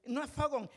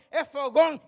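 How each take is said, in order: First: "fogón" said the English way, wrong stress; mock mispronounced fogón. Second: "fogón" with a clear stress on the last syllable, much louder; preacher loudly corrects the sister's "fogón" to its proper stress. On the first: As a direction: mimic the English speaker's flat "fogón". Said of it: "es fogón y lleva acento". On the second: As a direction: correct her, punching the accented "-gón" of "fogón". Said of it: "y lleva acento". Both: Shown as a demonstration.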